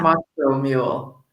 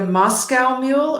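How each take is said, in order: First: Moscow with a long "oh" ending; MOSS-coh pronunciation. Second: Moscow with an "ow" ending, like the animal cow; MOSS-cow pronunciation. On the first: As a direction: say "Moscow" to rhyme with "go". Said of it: "Or is it Moscow Mule?". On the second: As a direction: say "Moscow" to rhyme with "now". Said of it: "if you talk about the drink". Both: Shown as a demonstration.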